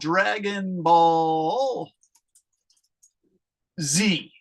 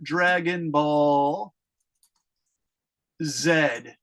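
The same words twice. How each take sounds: First: The letter Z is said the American way. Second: The letter Z is said the British way. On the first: "in America, you guys, it's called" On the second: "the British people call it"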